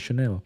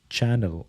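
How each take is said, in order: First: It is said with the French pronunciation. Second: It is said like the English word channel. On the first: "people say Chanel" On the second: "a normal plain English guy would just say channel"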